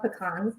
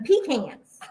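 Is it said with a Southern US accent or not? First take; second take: no; yes. First: It is said in the speaker's usual accent. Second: It is said the Southern way, like Papa.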